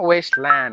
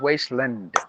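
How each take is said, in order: First: The 'land' part has a full, long vowel. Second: The 'land' part has a short, reduced vowel. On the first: The speaker calls it wrong. "not wasteland" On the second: The speaker calls it right. "it's wasteland. When you put that as a compound noun, there the land becomes land"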